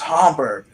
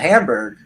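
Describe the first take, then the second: First: Hamburg is said with a German pronunciation. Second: Hamburg is said with an anglicized pronunciation. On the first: The speaker calls it right. "no, it's Hamburg" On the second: The speaker calls it wrong. "which is not how you pronounce it"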